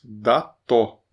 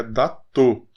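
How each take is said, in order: First: "Dató" with open final ó; "Dató" in two beats, open ó; open vowels. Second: "datô" with closed final ô; wrong closed O. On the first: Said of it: "As duas são abertas". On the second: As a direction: round and close the last vowel of "datô". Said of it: "Não é datô". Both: Shown as a demonstration.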